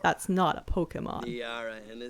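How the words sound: It is said in a put-on character voice.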